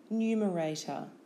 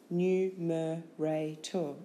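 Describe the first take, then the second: First: Said in the usual way. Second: Slow "Numerator" as nu, me, ra, tor; syllable by syllable. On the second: Shown as a demonstration. Teacher giving syllables for spelling, Numerator slowly in beats. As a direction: break Numerator into four separate beats.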